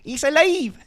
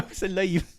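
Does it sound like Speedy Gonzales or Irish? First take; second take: Speedy Gonzales; Irish. First: It sounds like a Speedy Gonzales cartoon accent. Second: It sounds like an Irish accent.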